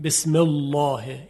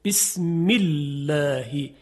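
First: بسم الله with a thick, emphatic lam; wrong heavy lam. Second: بسم الله slow, with the lam of الله light and thin. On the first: Teacher shows the incorrect heavy lam. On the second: Teacher demonstrates the eloquent thin lam. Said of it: "فصیح نیست". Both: Shown as a demonstration.

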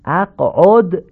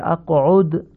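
First: "اقعد" as aq'od, with an open o; non-standard damma. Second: "اقعد" as aq'ud, with pure short u; correct Arabic damma. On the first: Teacher shows learners the faulty word, non-standard damma. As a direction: slowly show "اقعد" with o in the last syllable. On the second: Teacher corrects the word for learners, correct Arabic damma. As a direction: slowly say "اقعد" with a rounded u. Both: Shown as a demonstration. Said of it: "تمام این ضمه ها باید فصیح تلفظ بشن".

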